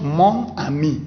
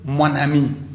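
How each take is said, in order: First: Mon and ami are said separately, without linking. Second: Mon and ami are linked with an n sound. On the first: The speaker calls it wrong. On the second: The speaker calls it right. "Mais il faut dire"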